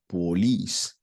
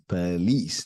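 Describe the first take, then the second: First: The first syllable has a full, unreduced vowel. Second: The first syllable is a reduced 'per' sound. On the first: The speaker calls it wrong. "not police" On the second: The speaker calls it right. "The sound of the word here is police"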